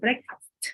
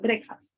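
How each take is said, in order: First: The final consonant sound is pronounced. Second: The final consonant sound is dropped. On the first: The speaker calls it right. "rather than breakfast" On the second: The speaker calls it wrong. "or breakfast rather than"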